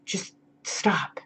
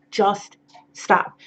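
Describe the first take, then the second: First: Breathy whispered just stop, very soft; hushed, urgent whisper; whispered plea. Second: Said in the usual way. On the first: Real, not acted. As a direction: drop to a whisper to drive it home. Pleading with nude buyers to stop.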